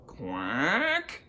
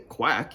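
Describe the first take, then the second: First: "Quack" drawn out with a rising tune; questioning quack. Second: Said in the usual way. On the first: Acted. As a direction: stretch "Quack" softly upward like a question. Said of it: "it's a questioning quack". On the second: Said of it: "he doesn't say".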